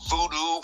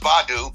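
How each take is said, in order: First: The first syllable has an 'oo' vowel. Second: The first syllable has an 'ah' vowel. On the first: The speaker calls it wrong. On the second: The speaker calls it right.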